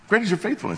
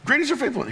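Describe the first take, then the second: First: It is said in a calm, matter-of-fact tone. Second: It is said with excited, exclamatory energy. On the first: It is a settled truth known without doubt. "He says like a matter of fact" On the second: It is a thrilling, celebratory declaration. "with an exclamation like I would. I'd be like, woohoo"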